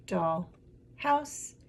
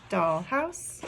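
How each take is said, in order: First: Syllable by syllable. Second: Said in the usual way. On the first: Shown as a demonstration. Teacher repeating the two syllables heard, broken apart. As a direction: split "doll" and "house", lifting the second. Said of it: "I heard". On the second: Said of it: "Two syllables".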